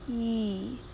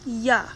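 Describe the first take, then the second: First: The y sound is short with no uh vowel. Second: The y sound is followed by an uh vowel. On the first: The speaker calls it right. "It says ye" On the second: The speaker calls it wrong. "does not say ya"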